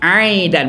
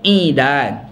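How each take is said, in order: First: The first vowel is an a sound. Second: The first vowel is an i sound. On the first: It means palm fronds or stalks. The speaker calls it right. "Bacaan betul adalah aidan, bagi atas" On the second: It means wood or sticks. The speaker calls it wrong. "bacaan betulnya bukan idan"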